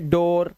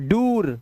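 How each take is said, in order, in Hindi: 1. यह स्वर o की आवाज है। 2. यह स्वर long oo की आवाज है। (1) "ओ की आवाज" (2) "ये दोनों ही नहीं है"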